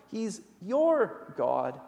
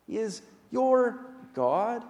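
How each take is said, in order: First: "your" drawn out, whole line slow; slow each word, dwell on "your"; slow stress on your. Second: "your" leaned on with a slow rise; stress on your. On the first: Preacher to congregation, slowly pressing on "your". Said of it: "Your here is singular". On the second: Preacher to congregation, lingering on "your". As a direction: lift and stretch the word "your". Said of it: "Your is a word of warmth". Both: Real, not acted.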